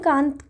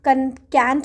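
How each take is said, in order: First: The vowel is an open 'ah' sound. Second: The vowel is like 'a' in 'cat'. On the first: "सो मैं इसको Immanuel कांत पढ़ती हूँ" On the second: "because it's a British accent"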